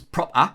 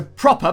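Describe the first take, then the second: First: "proper" ending in an open "ah"; Geordie A ending. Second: Said in the usual way. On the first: Shown as a demonstration. Narrator demonstrating Geordie endings, "proper" said "prop-ah". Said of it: "swapped out for the letter A". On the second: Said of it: "end in E R get swapped out".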